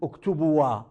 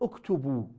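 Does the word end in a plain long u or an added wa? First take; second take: added wa; long u. First: The word ends with an extra wa syllable. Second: The word ends on a plain long u. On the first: The speaker calls it wrong. "لا تقول اكتبوا وا" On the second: The speaker calls it right. "تقول اكتبوا"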